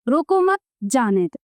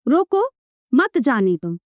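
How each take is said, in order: First: There is a pause right after 'mat'. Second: There is a pause right after 'ruko'. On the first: Do not stop them; let them go. "दूसरे वाक्य का अर्थ हुआ रोको मत बल्कि जाने दे" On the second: Stop them; do not let them go. "पहले वाक्य का अर्थ हुआ रोक लो, जाने मत दो"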